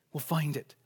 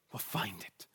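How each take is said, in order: First: Said in the usual way. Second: Breathy hushed whisper, much softer. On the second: Acted. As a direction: drop to a whisper on the promise. Scripture quote ending in hush.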